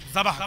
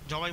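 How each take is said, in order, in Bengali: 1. শব্দটি 'ah' ধ্বনিতে শেষ হয়। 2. শব্দটি 'ai' ধ্বনিতে শেষ হয়। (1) "কিন্তু অ্যাকচুয়ালি এর উচ্চারণ হচ্ছে জাবাহ।" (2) "আমরা বাংলাতে কি বলি সচরাচর বলে? জবাই বলি।"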